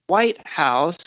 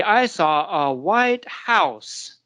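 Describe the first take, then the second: First: WHITE stressed, rising, in "White House". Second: Slow, HOUSE with pitch up in "white house"; stress on house. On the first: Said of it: "it's the opposite direction". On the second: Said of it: "where the pitch goes up". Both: Shown as a demonstration.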